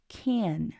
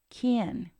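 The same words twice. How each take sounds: First: The word is stressed with a full vowel. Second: The same.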